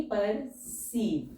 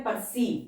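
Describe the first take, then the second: First: परसीव drawn out very slowly; slow dictation. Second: Said in the usual way. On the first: Shown as a demonstration. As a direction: stretch परसीव for students to write. (परसीव को बहुत धीरे खींचकर बोलना) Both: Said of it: "जैसे word है परसीव".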